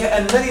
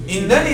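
First: The word begins with an 'a' vowel. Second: The word begins with an 'i' vowel. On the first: The speaker calls it wrong. "هذا خطأ" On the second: The speaker calls it right. "الصحيح أن أقول قلت لك إنني سأسافر"

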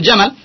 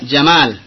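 First: The vowel after the m is short. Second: The vowel after the m is long. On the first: It means camel. The speaker calls it wrong. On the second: It means beauty. The speaker calls it right.

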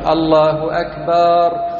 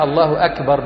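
First: The vowel in akbar is stretched long. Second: The vowel in akbar is short. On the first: The speaker calls it wrong. "بعضهم يضيف ألفا فيقول" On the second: The speaker calls it right. "إنما هي الله أكبر بالكاف"

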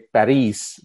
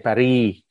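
First: The final s sound is pronounced. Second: The final s sound is dropped. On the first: "They don't say Paris" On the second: "they say Paris"

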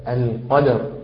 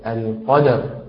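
Both takes have the same delivery.

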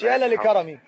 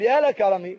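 First: Two 'la' syllables are said before 'karami'. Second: One 'la' syllable is said before 'karami'. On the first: The speaker calls it wrong. "ما تقولش 2 لام، مش يا لا لكرمي" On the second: The speaker calls it right. "هقول يا لك كرمي"

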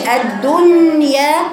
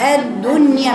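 First: The final vowel is drawn out long. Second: The final vowel is kept short and gentle. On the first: The speaker calls it wrong. "ما تطوليش" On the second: The speaker calls it right. "الدنيا بلطف كده"

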